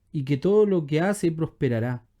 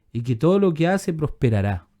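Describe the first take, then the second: The two takes are said the same way.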